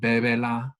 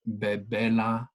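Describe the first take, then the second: First: The stress is on the first syllable. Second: The stress is on the second syllable. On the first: The speaker calls it right. "and then bebela" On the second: The speaker calls it wrong. "not bebela"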